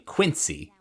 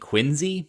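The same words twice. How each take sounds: First: It is said the general American way. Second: It is said the local Boston way. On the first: The speaker is not from the local area. "like you would say if you were from any other part of the country" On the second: The speaker is a local who kept the old pronunciation. "the Boston accent has disappeared because people aren't saying Quincy"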